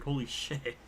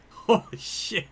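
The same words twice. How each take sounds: First: Said in the usual way. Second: Breathless laughing "Holy shit"; slow, airy, laughing through it; real stunned laugh; laughing disbelief. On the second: Real, not acted.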